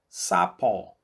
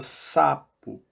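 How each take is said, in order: First: The final o is open, like in pó. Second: The final o is closed and short. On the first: The speaker calls it wrong. "aberto, pó. Sapó... a gente não fala sapó" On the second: The speaker calls it right. "a gente fala sapo, né? Mais fechadinho"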